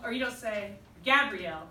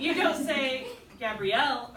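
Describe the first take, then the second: First: Gabrielle with its stress moved to a different syllable; shifted stress demo. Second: Gabrielle with the stress put early, said slowly; misplaced stress demo. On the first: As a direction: another wrong way to stress Gabrielle. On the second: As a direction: show the wrong stress on Gabrielle. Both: Shown as a demonstration. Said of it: "the stress is on the end".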